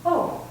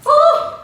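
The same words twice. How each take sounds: First: Soft, light "Oh" of gentle surprise; a relaxed little surprised oh; mild surprised oh. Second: High, loud surprised "Oh"; bright surprised oh. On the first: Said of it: "gentle surprise and it's like". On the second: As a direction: let the surprise pop out on oh. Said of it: "It's like". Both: Shown as a demonstration.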